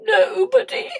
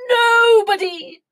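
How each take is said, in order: First: High, self-pitying king; hammed-up whimper. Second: Loud, high, drawn-out whoop; gleeful king. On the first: King complains to the queen, play-whimpering. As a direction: whimper it like a wounded royal. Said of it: "he whimpered". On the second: King sliding down the banisters, gleeful. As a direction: call it out mid-slide. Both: A narrator's reading.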